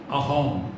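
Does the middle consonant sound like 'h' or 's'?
h. The middle consonant is an 'h' sound. "Sha is uh, pronounced as Ha"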